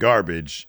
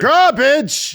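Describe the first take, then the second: First: It is said in a normal voice. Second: It is said in a put-on voice.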